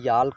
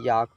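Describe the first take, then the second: First: The L sound is pronounced. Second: The L sound is left out. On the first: The speaker calls it wrong. "इसे याल्क नहीं पढ़ेंगे" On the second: The speaker calls it right. "याक पढ़ेंगे"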